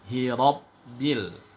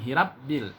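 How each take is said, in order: First: The r is thick with a vowel toward o. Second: The r is thin with a clear a vowel. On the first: The speaker calls it right. "Vokalnya harus mengarah ke bunyi O, karena huruf Ro baris fathah, dia dibaca tebal" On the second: The speaker calls it wrong. "Salah, bukan hirabbil"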